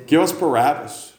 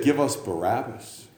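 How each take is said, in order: First: Crowd shout. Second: Said in the usual way. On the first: Acted. Crowd demands Barabbas.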